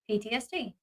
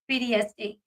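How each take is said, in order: First: It begins with a voiceless P sound. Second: It begins with a voiced B sound. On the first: This is the speaker's own usual pronunciation. "I say P T S D" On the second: This imitates another person's pronunciation. "the way that he pronounced it was weird"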